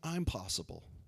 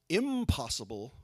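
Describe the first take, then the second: First: A short break splits it into two words. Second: It is said as one word without a break. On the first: I am capable of it. "putting a little comma there and saying" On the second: It cannot be done. "shift from impossible"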